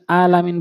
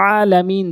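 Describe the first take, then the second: First: "আলামিন" with a plain glottal A; hamza instead of ayn. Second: "আলামিন" with a squeezed, drawn-out throat A; pressed ayn. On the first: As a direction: start "আলামিন" lightly, no throat squeeze. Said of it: "আইনের জায়গায় হামজা এনে বলে". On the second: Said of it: "চাপ দিয়ে বলতে হবে". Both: Shown as a demonstration.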